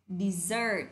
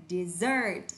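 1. Trọng âm ở âm tiết thứ hai. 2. Trọng âm ở âm tiết thứ hai.

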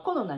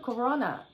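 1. 日本語のカタカナ風に発音されています。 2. 英語風に発音されています。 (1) "コロナになっちゃうから日本語だと" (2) "英語だとコロナじゃないですか"

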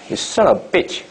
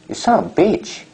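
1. 마지막 단어의 모음은 짧아요. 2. 마지막 단어의 모음은 길어요. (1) "이게 아니라 bitch" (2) "길게 말하면"

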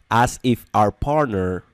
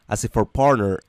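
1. Cada palabra se dice por separado y con cuidado. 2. Las palabras se juntan rápido, como si fueran una sola. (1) "pero eso no se pronuncia así" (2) "lo pronuncian de manera rápida, lo linkean, lo unen todo"

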